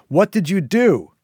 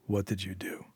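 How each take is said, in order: First: Loud, high shout with DO falling hard; loud demand. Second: Quiet, low threatening growl. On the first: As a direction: yell the question at her, stress on do. Syl repeats question, now loud. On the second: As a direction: growl it under your breath, much softer. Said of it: "Syl growled". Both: A narrator's reading.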